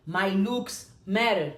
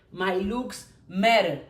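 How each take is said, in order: Both takes have the same delivery.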